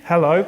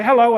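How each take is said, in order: First: Lower, laughing "Hello" after a long lag, as if on a bad video call; delayed reply. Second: Mum's quick, bright "Hello"; a light take of his mum saying "Hello" straight away; mum's prompt hello. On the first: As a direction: answer "Hello" late, like waiting out the lag. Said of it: "I'd be like". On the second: Retold or imitated. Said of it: "she'd say".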